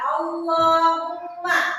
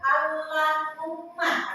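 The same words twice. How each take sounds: First: The L is heavy, with a full, thick sound. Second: The L is light, with a thin sound. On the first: The speaker calls it right. "tebal ya" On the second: The speaker calls it wrong. "Jadi bukan Allahumma. Allah itu uh, tipis"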